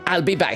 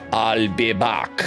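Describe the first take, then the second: First: It is said in the speaker's normal voice. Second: It is said in a put-on imitation voice.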